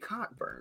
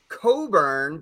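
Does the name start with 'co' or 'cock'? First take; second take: cock; co. First: The first syllable sounds like 'cock' with k. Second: The first syllable sounds like 'co' without k. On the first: The speaker calls it right. "but really it's Kofi Cockburn" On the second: The speaker calls it wrong. "It's about like Kofi Coburn"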